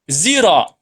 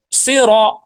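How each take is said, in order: First: It starts with a z sound. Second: It starts with a thick, heavy s sound. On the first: This follows another permitted variant reading. "menggunakan huruf za" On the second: This is the standard reading for beginners. "huruf shad yang aslinya"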